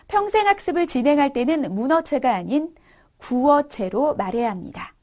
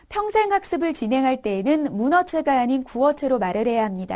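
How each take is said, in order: First: 구어체 is said slowly and distinctly. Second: 구어체 is said at normal speed.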